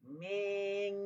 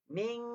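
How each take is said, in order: First: The vowel is stretched out long. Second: The nasal hum is held for two beats. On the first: The speaker calls it wrong. "jangan panjang macam tu" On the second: The speaker calls it right. "panjangkan pada dengungnya dua harakat"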